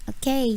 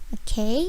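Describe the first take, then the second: Both takes have the same delivery.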